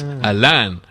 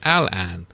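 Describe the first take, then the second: First: The stress is on the second syllable. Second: Both syllables are stressed about equally. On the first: "with the emphasis on the Lan" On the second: "with no real emphasis on either syllable"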